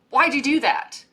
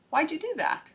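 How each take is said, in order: First: It is said in a sharp, critical tone. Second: It is said in a warm, curious tone. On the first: The speaker is criticizing the other person. The speaker calls it wrong. "like a harsh critique" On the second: The speaker genuinely wants to understand. The speaker calls it right. "like a curious friend"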